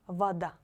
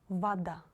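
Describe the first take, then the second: The two takes are said the same way.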